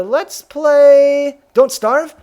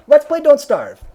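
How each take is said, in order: First: "Let's play Don't Starve?" drawn out very slowly, high and loud, rising at the end; rising question. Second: "Let's play Don't Starve." said high and loud with a firm falling end; decisive statement. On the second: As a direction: settle it with "Let's" punched and a falling tune. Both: Shown as a demonstration.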